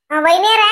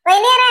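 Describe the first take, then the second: First: Said in the usual way. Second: Higher, rising call; pointed summons with a raised pitch; insistent calling. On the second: Acted. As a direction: call out to get her attention. Repeated, more insistent call.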